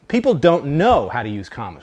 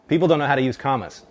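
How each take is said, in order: First: There is a stressed pause after "know". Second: It flows without a pause after "know". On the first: "We say it that way sometimes. ... There's that emphasis there" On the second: "There should be no comma in that sentence at all"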